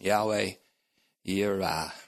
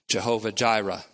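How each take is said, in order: First: Both words begin with a Y sound. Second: Both words begin with a J sound. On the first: The speaker calls it right. "but that's not the real pronunciation" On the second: The speaker calls it wrong. "It is said in a more vulgar way"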